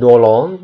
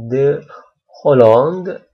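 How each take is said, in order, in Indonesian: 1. 'De' menyatu dengan nama. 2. 'De' tetap menjadi suku katanya sendiri. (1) "bukan Dolong" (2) "tapi les ambassades de Hollande"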